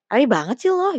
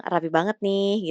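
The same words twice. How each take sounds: First: High, loud mock-judgmental jab; catty, snide. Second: Slow, drawn-out idle comment; casual teasing. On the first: Someone judging another's neat outfit, cattily. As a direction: needle them with exaggerated nosy disapproval. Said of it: "kayak ngejulit". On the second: Someone idly remarking on neat clothes, teasingly. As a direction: toss it out playfully, just for fun. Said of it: "itu kayak iseng". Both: Shown as a demonstration.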